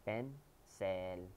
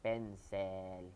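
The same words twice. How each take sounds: The two takes are said the same way.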